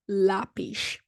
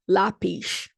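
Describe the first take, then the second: First: The final consonant is a sh sound. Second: The final consonant is a sh sound.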